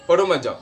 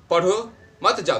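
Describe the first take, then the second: First: "पढ़ो मत जाओ" said quickly, barely a break; quicker, shorter stop. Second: "पढ़ो", short stop, then "मत जाओ"; brief comma-like pause. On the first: Teacher shows a semicolon's shorter stop, "पढ़ो मत जाओ" said quickly. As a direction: move swiftly from "पढ़ो" into "मत जाओ". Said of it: "थोड़ा जल्दी से". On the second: Teacher shows students the semicolon, pausing briefly after "पढ़ो". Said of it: "थोड़ा सा रुके, ऐसे". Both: Shown as a demonstration.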